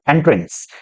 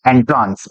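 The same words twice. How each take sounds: First: "एंट्रेंस" with an e vowel, en-trens; "एंट्रेंस" ending in trens, short e; usual entrance pronunciation. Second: "एंट्रांस" with a long aa, en-traans; "एंट्रांस" sounded out with traans at the end; spelling-aid pronunciation. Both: Shown as a demonstration. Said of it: "एंट्रांस बराबर एंट्रेंस".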